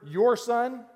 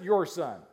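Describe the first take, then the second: First: YOUR stressed high and loud, pointed; "Your" hit hard like a fed-up parent; exasperated your son. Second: "your" leaned on with a falling tune, less pitch; your son, tossed off. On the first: Parent passing blame to spouse, stressing your. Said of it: "any of you married with kids? You ever heard". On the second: Parent shrugging off the kid to spouse, stress on your. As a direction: lighter blaming "your son". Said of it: "Or is it". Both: Retold or imitated.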